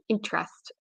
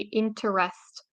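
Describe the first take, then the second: First: The vowel after the first syllable is reduced. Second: Every vowel in the word is fully pronounced. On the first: The speaker calls it right. "the E here, the first inte, is uh, reduced" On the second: The speaker calls it wrong. "English learners will say interest"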